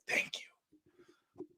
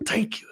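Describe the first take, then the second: First: Breathy mock whisper of relief; whispered thanks. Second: Said in the usual way. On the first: Imagining his own death, he whispers mock thanks. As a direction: whisper it like a grateful dying man. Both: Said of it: "I'm kinda like".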